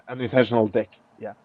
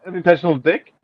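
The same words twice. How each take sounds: First: Softer, quick, through a laugh. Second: Said in the usual way. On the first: Real, not acted. Rereading the stranger's typo to viewers, laughing. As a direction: chuckle it out at the typo.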